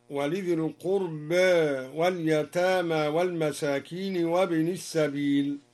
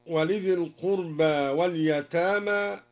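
First: "القربى" with the final alif tilted halfway toward e, al-qurbæ; taqlil on al-qurba. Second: Said in the usual way. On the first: Shown as a demonstration. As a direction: give "القربى" a slight imala at its end. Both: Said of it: "قلل القربى هكذا".

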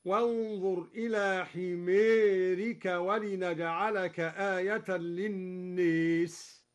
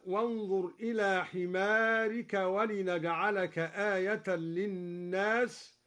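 First: حمارك as ħimerik and للناس as liːes, the long a leaned toward e; slow recitation tilting the a of حمارك and للناس; imala on حمارك and للناس. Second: Said in the usual way. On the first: Shown as a demonstration. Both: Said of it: "أمال كلا من حمارك وللناس".

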